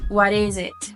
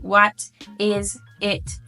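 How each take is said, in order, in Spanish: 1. Las tres palabras se unen y se dicen como una sola. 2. Las tres palabras se dicen por separado. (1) "Van a unir todo y van a decir what is it" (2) "no van a decir what is it"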